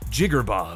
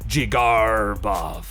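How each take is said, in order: First: The name is said short and clipped. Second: The R is drawn out like a pirate. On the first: "Some people say short and sweet like" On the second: "short jig, long R like a pirate, short bov"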